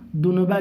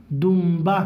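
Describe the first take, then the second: First: دنبہ with a clear n before the b; as written. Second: دمبہ as dum-ba with a held m; nun read as mim. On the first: Teacher shows pupils the spelling, دنبہ said with an n. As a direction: sound out the نون in دنبہ as dun-ba. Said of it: "لکھا ہے". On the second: Teacher shows how to read it, دمبہ said with an m. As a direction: close the lips on a humming m in دمبہ. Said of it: "یہ اس طرح سے پڑھیں گے". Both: Shown as a demonstration.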